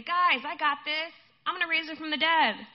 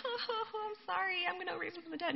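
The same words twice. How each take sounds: First: Loud, high, cocky announcement; mock confidence. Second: High, soft mock-weepy whimper; fake crying. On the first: Imagined Jesus reassures mourners before the miracle, mock confidence. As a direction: announce it breezily, as if no problem. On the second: Imagined Jesus feigns sorrow before raising the dead, fake crying. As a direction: pretend to sob, voice pitched way up. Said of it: "so Jesus wasn't like".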